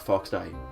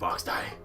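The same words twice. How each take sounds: First: The voice falls at the end. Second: The voice rises at the end.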